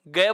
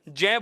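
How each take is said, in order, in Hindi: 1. अक्षर की शुरुआत कठोर g ध्वनि से होती है। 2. अक्षर की शुरुआत कोमल j ध्वनि से होती है। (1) "गय बोला जाने लगा है" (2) "अर्थात आप इसे क्या बोलेंगे? जय बोलेंगे"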